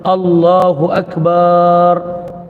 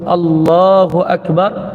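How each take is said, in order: First: The vowel after the b is drawn out long. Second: The vowel after the b is kept short. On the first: God is a big drum. The speaker calls it wrong. "bukan dia sebut Allahu Akbar" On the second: God is the greatest. The speaker calls it right. "sepatutnya dia sebut Allahu Akbar"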